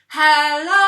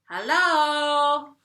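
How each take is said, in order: First: It is called out loudly. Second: It is called at normal, softer volume.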